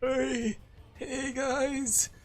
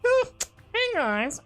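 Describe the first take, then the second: First: It is said in an older-sounding voice. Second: It is said in a nerdy put-on voice.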